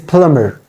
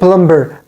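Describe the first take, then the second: First: The b sound is silent in the word. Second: The b sound is pronounced in the word. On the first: The speaker calls it right. "B is also silent here" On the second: The speaker calls it wrong. "We say it plumber, but it is not plumber"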